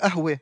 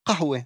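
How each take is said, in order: First: The word begins with a glottal stop. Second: The word begins with a deep throaty q. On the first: The speaker is from a city such as Haifa or Jerusalem. "קוף הופכת לאלף" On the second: The speaker is Druze. "הוגים את הקוף גרונית"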